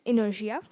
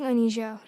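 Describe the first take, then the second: First: It sounds like 'in-er-sha'. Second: It sounds like 'a-nee-sha'. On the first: The speaker calls it right. "It is inertia" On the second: The speaker calls it wrong. "I was pronouncing Anisha wrong"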